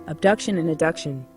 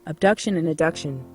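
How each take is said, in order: Both takes have the same delivery.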